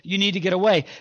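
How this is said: It is said boldly and firmly.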